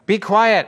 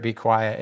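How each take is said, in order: First: Higher, firm rebuke; reprimand. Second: Said in the usual way. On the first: Acted. Jesus reprimands the demons, firm rebuke. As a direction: silence them with a sharp order. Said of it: "Jesus reprimanded them".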